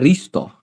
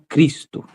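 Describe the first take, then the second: First: The word begins with an R sound. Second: The word begins with a K sound. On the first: The speaker calls it wrong. "se eu tomasse por som de R, ia ficar Risto" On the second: The speaker calls it right. "e não Cristo"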